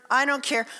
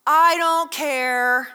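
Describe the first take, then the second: First: Said in the usual way. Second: Very slow, stretched, louder shrug of a reply; mock indifference; drawn-out I don't care. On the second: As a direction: drag out "I don't care" like you really don't. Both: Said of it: "what is the response?".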